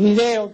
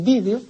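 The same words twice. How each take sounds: First: The stress is on the second syllable. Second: The stress is on the first syllable. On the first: This is how it is said locally. The speaker calls it wrong. "que se dice aquí" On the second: This is how it is said in Spain. The speaker calls it right.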